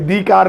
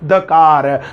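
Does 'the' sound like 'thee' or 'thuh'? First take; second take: thee; thuh. First: 'The' has a long vowel, like 'thee'. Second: 'The' has a short vowel, like 'thuh'. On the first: The speaker calls it wrong. "दी car नहीं" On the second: The speaker calls it right. "द बोलेंगे"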